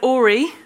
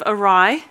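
First: The word ends with a 'ree' sound. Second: The word ends with a 'rye' sound. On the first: The speaker calls it wrong. "I said ori instead of awry" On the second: The speaker calls it right. "instead of awry"

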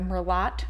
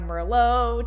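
First: The final t is pronounced. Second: The final t is silent.

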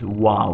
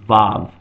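First: The word begins with a W sound. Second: The word begins with a V sound. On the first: This is the original pronunciation. "actually originally it was pronounced as a W sound" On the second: This is the common modern pronunciation. "commonly modernly pronounced vav"

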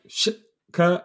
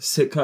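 First: The word begins with an sh sound. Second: The word begins with a plain s sound. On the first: The speaker calls it right. "It's like Shitka" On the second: The speaker calls it wrong. "it's not Sitka"

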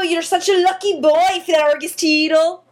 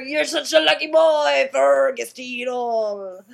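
First: It is spoken in a Scottish accent. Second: It is spoken in a pirate accent. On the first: "Okay, that was Scottish" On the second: "So now if I said it as a pirate, how would it sound?"

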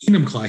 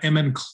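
First: It is said in a standard American accent. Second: It is said in a Finnish accent.

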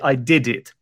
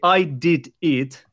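First: The words run together into one linked chunk. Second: Each word is said separately and clearly. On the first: The speaker calls it right. "Most native speakers would just say" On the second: The speaker calls it wrong. "but nobody speaks like that"

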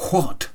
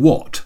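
First: The word starts with a breathy h sound. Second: The word starts without a breathy h sound. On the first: "I was pronouncing the H" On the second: "Do you mean what?"

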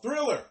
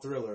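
First: The word is said with excited, exclamatory energy. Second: The word is said flatly, without extra energy. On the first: The title has an exclamation point. The speaker calls it right. "It's called Thriller" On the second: This is the wrong form of the title. The speaker calls it wrong. "It's not called Thriller"

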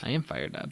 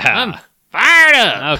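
First: It is said with low energy. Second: It is said with high energy.

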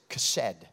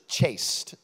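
First: It is said with a Hebrew pronunciation. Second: It is said with an English pronunciation. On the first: The speaker calls it right. "but it's chesed" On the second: The speaker calls it wrong. "We would pronounce it in English chaste"

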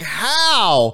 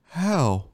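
First: It is said with exaggerated, incredulous disbelief. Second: It is said as a plain, simple question.

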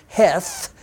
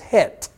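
First: The name ends with a th sound. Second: The name ends with a plain t sound. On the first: The speaker calls it wrong. "you don't pronounce that as Heth, as you would see in your English Bible" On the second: The speaker calls it right. "you would say that in Hebrew as Het"

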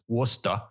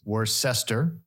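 First: It is said with a Massachusetts accent. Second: It is said the way it is spelled.

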